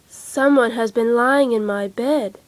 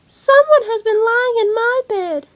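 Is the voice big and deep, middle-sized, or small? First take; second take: big; small. First: It is said in a great big voice. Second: It is said in a little baby voice.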